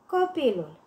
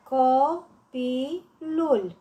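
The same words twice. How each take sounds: First: Said in the usual way. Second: "Copilul" slowly broken up, co-pi-lul; syllable by syllable. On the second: Shown as a demonstration. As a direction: give "Copilul" three spaced beats: co, pi, lul. („Copilul” rostit rar, pe silabe: co-pi-lul) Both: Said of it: "Desparte în silabe cuvintele date".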